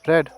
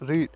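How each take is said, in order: First: The vowel is short, like in 'bed'. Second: The vowel is long, like in 'seed'. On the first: The speaker calls it right. "से हम करते हैं रेड" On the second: The speaker calls it wrong. "इसे रीड pronounce नहीं करते हैं"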